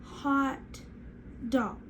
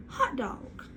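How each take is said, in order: First: "Hot... dog" with a long gap; each part of "Hot dog" separate and stretched; split into syllables. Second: Said in the usual way. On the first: Shown as a demonstration. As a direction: say "Hot", pause, then "dog". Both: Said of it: "let's try hot dog".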